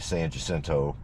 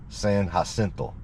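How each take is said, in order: First: The name is pronounced the English way. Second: The name is pronounced the Spanish way. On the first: "most folks just say San Jacinto" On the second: "That's the way you, you're supposed to pronounce it"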